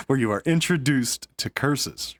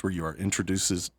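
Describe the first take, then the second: First: "introduced" said cleanly ending in a firm -st; corrected pronunciation. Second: "introduces-" said wrongly as intro-du-sez, then cut off; mispronounced word. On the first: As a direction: fix it as "introduced" with a crisp -st. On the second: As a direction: stumble on "introduces-" ending in -sez. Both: Real, not acted. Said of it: "man, I really can't talk today".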